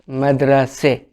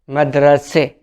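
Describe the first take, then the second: First: The word ends with a front 'e' vowel. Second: The same.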